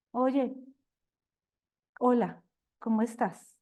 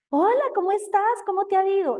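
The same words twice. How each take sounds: First: Unsmiling, held-back hello with pauses; demonstrating an aloof, self-sufficient hello; self-important greeting. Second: High, bright-spirited hello, a little louder; demonstrating a cheerful, smiling hello; happy greeting. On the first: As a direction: greet them coolly, as if above them. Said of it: "Yo estoy mostrando una cara distinta". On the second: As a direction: greet them happily, pitch lifted way up. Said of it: "Lo estoy diciendo feliz". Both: Shown as a demonstration.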